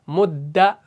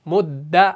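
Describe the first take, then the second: No difference in how they are said.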